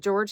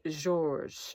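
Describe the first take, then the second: First: The name is said the English way. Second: The name is said the French way. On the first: "I might just call it the George handbag" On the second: "it feels really weird to say"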